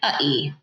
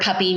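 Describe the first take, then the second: First: The p sounds are replaced by glottal stops. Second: The p sounds are made with the lips.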